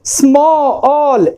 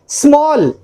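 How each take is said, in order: First: "small" slowly split as smo-ol; vowel drawn out. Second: Said in the usual way. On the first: Shown as a demonstration. Teacher showing the one vowel sound, vowel drawn out.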